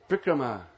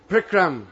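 First: The final long vowel is pronounced. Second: The final vowel is cut off. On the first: The speaker calls it right. "It's a long A at the end. You have to pronounce it. You can't cut it off" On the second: The speaker calls it wrong. "the worst one"

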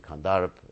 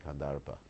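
First: The final vowel is dropped. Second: The final vowel is pronounced. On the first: This is the Hindi way of saying it. The speaker calls it wrong. "So you say Kandarp, ... because you don't pronounce the final A in Hindi" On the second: This is the Sanskrit way of saying it. The speaker calls it right. "and I say Kandarpa. So, I'm right"

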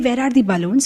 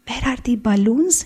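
First: The question is asked in a harsh, agitated tone. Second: The question is asked in a gentle, polite tone. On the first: The speaker is annoyed and unrestrained. "they may be so halla gulla" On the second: A respected person is present. "But now your tone will be"

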